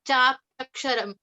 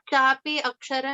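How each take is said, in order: First: The words are joined with a y glide. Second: The words are said separately with a full vowel. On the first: The speaker calls it right. "it's chapyaksharam. So when you combine, it changes" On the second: The speaker calls it wrong. "it's not chapi aksharam"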